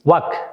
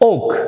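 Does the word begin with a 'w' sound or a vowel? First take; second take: w sound; vowel. First: The word begins with a 'w' sound. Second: The word begins directly with a vowel. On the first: The speaker calls it wrong. "আমরা এটাকে বলি কি ওয়াক" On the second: The speaker calls it right. "দেখবে ওক"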